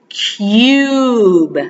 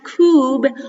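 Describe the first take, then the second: First: A 'y' glide comes between the k and vowel. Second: The vowel follows the k with no 'y' glide. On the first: The speaker calls it right. "We pronounce it cube" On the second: The speaker calls it wrong. "We don't pronounce it cube"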